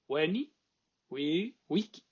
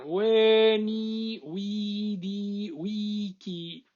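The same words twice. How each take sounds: First: The vowels are kept short. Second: The vowels are held long. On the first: This is how modern scholars read it. "lo que lee es esto" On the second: This is how the ancient speakers said it. "con vocales largas"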